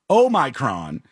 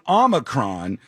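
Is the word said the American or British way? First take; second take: British; American. First: The word is pronounced the British way. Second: The word is pronounced the American way. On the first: This is how the British say it. "the Brits are arguing that it's Omicron" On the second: This is how Americans say it. "we're saying Omicron"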